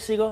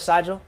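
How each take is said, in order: First: The name sounds like the word seagull. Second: The name does not sound like seagull. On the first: The speaker calls it right. "like the bird" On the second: The speaker calls it wrong. "instead of"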